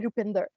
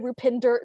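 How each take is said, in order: First: The name has its native Punjabi pronunciation. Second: The name has an anglicized English pronunciation. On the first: The speaker presents their true heritage. "do I say it correctly?"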